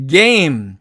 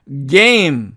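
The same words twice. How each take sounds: The two takes are said the same way.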